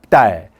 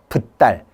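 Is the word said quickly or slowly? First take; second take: quickly; slowly. First: The word is said quickly as one syllable. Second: The word is said slowly, sound by sound. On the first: The speaker calls it right. "되게 빨리 읽었을 거예요" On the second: The speaker calls it wrong. "이걸 천천히 읽은 게 아니라"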